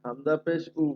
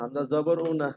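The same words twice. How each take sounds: First: হামজা পেশ উ said clearly as the right form, উ with পেশ; teacher demonstrates the correct reading after the error; correct model. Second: হামজা জবর উ said as the mistake to avoid, then rejected; the student's mistaken হামজা জবর উ, repeated to correct it; wrong vowel shown. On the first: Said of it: "খেয়াল করেন". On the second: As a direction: say উ after জবর as the wrong example. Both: Shown as a demonstration.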